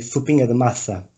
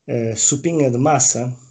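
First: The s sounds are lisped like th. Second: The s sounds are plain hissing s sounds.

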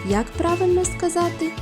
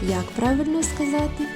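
The two takes are said the same way.

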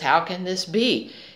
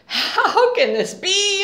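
First: It is said calmly and peacefully. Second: It is said in a panicked, anxious way.

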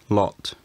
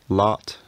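First: The vowel is said with rounded lips. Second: The vowel is said with unrounded lips. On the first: "a rounded variant may also have existed" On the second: "An unrounded variant probably existed"

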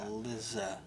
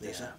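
First: The middle consonant is a buzzing Z sound. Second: The middle consonant is a hissing S sound. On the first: "it's probably closer to Elizabeth" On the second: "But it's probably just an S sound, right?"

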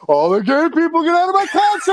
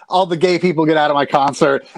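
First: It is said hyped up, like a rapper. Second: It is said flatly, without energy.

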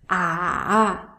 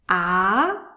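First: The pitch dips low, then rises. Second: The pitch rises from low to high. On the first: "The third tone is a turning tone" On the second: "The second tone is a rising tone"

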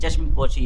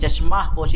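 First: The first word ends without any added vowel. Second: The first word ends with an added 'a' vowel. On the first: The speaker calls it right. "चश्म पोशी है" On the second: The speaker calls it wrong. "चश्मा पोशी नहीं"

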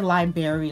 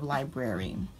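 First: The word is not pronounced as it is spelled. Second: The word is pronounced fully as it is spelled. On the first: The speaker calls it wrong. "When people say library instead of library" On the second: The speaker calls it right. "Just pronounce it the way it's spelled"

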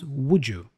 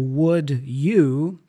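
First: The d and y blend into a j sound. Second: The d and y sounds stay separate.

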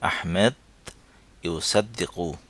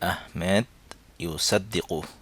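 Both takes have the same delivery.

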